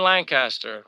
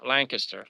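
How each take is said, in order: First: Lancaster with a full "cast" in the middle; Lancaster pronounced like Lan plus caster; full second syllable. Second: Lancaster with a swallowed middle, "LANK-uh-ster"; Lancaster with an unstressed, short middle vowel; reduced second syllable. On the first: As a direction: say Lancaster as "LAN-cass-ter". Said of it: "I don't say Lancaster". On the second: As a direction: say Lancaster as "LANK-iss-ter". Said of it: "I say Lancaster". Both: Shown as a demonstration.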